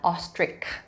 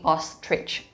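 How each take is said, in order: First: The word ends without a clear 'ch' sound. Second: The word ends with a clear 'ch' sound. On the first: The speaker calls it wrong. "Bukan ostrich" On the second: The speaker calls it right. "tapi ostrich. Ada C H sounds di situ"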